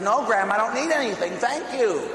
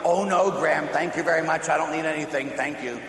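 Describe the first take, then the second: First: Higher, emphatic no to grandma; acted firm refusal, pitched up high; insistent mock refusal. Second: Lightly acted, courteous turning-down; polite mock refusal. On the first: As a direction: protest harder when pushed. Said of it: "And she pushed the guy and says". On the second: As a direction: play the game of modestly declining. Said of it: "I'm playing this game with my grandmother".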